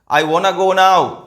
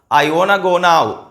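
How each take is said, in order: First: 'Want to' is joined and shortened into one word. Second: 'Want to' is joined and shortened into one word.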